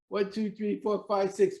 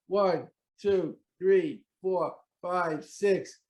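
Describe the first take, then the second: First: The counting is as fast as possible. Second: The counting is a little faster.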